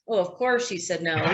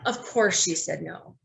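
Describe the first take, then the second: First: It is said in a dismissive tone. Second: It is said in a compassionate tone.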